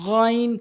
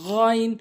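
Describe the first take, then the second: Both takes have the same delivery.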